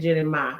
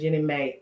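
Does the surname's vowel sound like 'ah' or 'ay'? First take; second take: ah; ay. First: The surname ends in an 'ah' vowel. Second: The surname ends in an 'ay' vowel. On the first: "I said Jenny Ma" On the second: "I know people are pronouncing it Jenny May"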